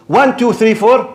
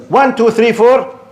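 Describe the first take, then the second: No difference in how they are said.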